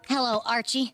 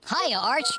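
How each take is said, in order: First: The greeting sounds pitiful and pleading. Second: The greeting sounds too cheerful.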